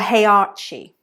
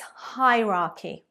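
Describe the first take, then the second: First: The middle consonant is a 'ch' sound. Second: The middle consonant is a 'k' sound. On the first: The speaker calls it wrong. "It's not heirechi or hierarchy. Absolutely not" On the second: The speaker calls it right. "It's a k, k at the end, not a ch"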